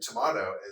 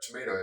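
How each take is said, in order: First: The middle vowel sounds like 'ah'. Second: The middle vowel sounds like 'ay'. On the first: "tomato as T O M A H T O" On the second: "you'd write out tomato as T O M A T"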